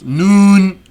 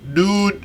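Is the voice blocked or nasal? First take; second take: nasal; blocked. First: The sound resonates through the nose. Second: The sound is blocked from the nose. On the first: "if I release my nostrils" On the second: "if I close them"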